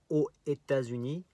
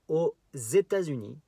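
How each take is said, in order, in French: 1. Aucune liaison en z ne relie les deux mots. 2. Une liaison en z relie les deux mots. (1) "On ne dit pas aux États-Unis, que c'est difficile à dire" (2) "il faut faire la liaison"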